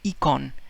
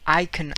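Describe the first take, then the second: First: The first vowel sounds like English 'ee'. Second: The first vowel sounds like English 'eye'.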